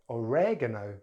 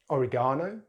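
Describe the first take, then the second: First: It is said with an American accent. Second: It is said with a British accent. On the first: "then American English" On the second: "in British English"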